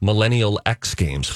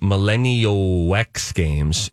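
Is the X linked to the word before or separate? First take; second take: separate; linked. First: The X is said apart from the word before. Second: The X runs into the word before it. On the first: The speaker calls it right. "I should say" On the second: The speaker calls it wrong. "I go Millennial X, like the W-E-X"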